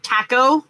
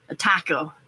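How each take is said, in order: First: "Taco?" with a flat "tack" first vowel, TACK-oh, rising; odd taco. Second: "A taco" said plainly as TAH-coh, falling, softer; usual taco. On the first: Reading a viewer's comment, she tries "Taco" as TACK-oh. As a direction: says "Taco" as TACK-oh, puzzled, mimicking northerners. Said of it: "I've heard people say it that way". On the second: Showing her own way of saying "A taco", TAH-coh. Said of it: "say it that way". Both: Shown as a demonstration.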